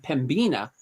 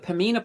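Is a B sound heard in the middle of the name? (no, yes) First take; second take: yes; no. First: The name is said with a B sound. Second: The name is said without a B sound. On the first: The speaker calls it wrong. "I was calling them Pembina" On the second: The speaker calls it right. "apparently the B is silent"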